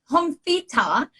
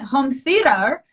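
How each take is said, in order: First: The final r of theater is dropped. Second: The final r of theater is pronounced. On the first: This is how Australians say it. "home theater in, in Australia" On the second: This is how Americans say it. "And home theater in America"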